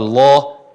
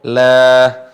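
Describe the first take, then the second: First: The la is heavy, with an o-like vowel. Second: The la is light, with an a-like vowel. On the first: The speaker calls it wrong. "bukan loh" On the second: The speaker calls it right. "tipis seperti huruf A"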